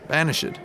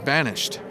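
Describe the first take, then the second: First: The ending is said as an extra syllable. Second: The ending adds no extra syllable. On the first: It is a passive participle. "Passive, banished" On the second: It is a simple past tense verb. "past tense is banished"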